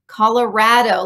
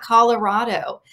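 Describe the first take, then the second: First: The middle syllable rhymes with 'rad'. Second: The middle syllable has an 'ah' vowel. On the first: The speaker calls it right. "like rad" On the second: The speaker calls it wrong. "not Colorado"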